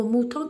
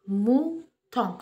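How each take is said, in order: First: Said in the usual way. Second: "Mouton" slowly cut into two beats, Mou, ton; split into syllables. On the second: Shown as a demonstration. Teacher shows children how mouton divides, "Mouton" syllable by syllable. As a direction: break "Mouton" after "Mou", drawing out each syllable. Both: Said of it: "comment est-il découpé".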